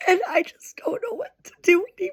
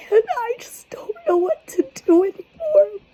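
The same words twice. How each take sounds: First: High, fast, tear-choked whisper; rushing the words out through tears; real crying, barely voiced; tearful whisper. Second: High, tearful whisper, voice cracking; can't hold the tears back any longer; real crying, words barely voiced; breaking into tears. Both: Real, not acted. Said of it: "I'm trying so hard not to cry".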